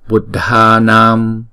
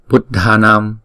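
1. Từ này được kéo dài, nguyên âm được kéo ra. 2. Từ này được đọc nhanh với tốc độ bình thường. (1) "mình đọc kéo dài một chút xíu để cho các bạn dễ nhận biết" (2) "ở ngoài đời thì đọc là Buddhanam"

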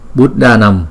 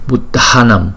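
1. Âm d ở giữa là không bật hơi, không có luồng hơi bật ra. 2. Âm d ở giữa mạnh hơn, có luồng hơi bật ra. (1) "Thí dụ như chữ D không, chúng ta đọc là" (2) "Chữ D chữ H thì đọc mạnh hơn là chữ D không"

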